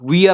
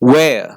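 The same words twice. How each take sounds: First: The vowel does not glide from A to E. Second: The vowel glides from A toward E. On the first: The speaker calls it wrong. "Wear അല്ല" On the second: The speaker calls it right. "It is wear"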